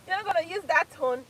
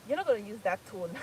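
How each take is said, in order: First: Higher and louder through laughter; mock stern warning cracking into laughter; laughing mock scold. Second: Said in the usual way. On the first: Quoting husband's rule, laughing.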